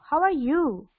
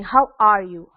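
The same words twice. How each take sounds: First: "How are you" much higher, swooping up and down; sing-song, high-pitched "How are you", falling at the end; swooping question tune. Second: "How are you" level and firm, falling at the end; even question tune. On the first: Teacher showing students a different tone choice, swooping tune. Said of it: "there is a differences". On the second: Teacher showing students one tone choice, even tune. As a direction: ask "How are you" plainly, without a big swoop. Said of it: "Like, if I'm saying". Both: Shown as a demonstration.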